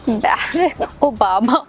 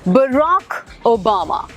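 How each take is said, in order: First: The first name sounds like 'Bare-ack'. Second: The first name sounds like 'Buh-rock'. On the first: The speaker calls it wrong. "बैरक Obama का नाम नहीं है" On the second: The speaker calls it right. "सही तो बोलना है ना"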